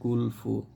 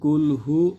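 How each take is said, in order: First: The second word starts with an f sound. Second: The second word starts with an h sound. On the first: The speaker calls it wrong. "বেশিরভাগ মানুষই পড়েন কুল ফু" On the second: The speaker calls it right. "আছে কুল হু"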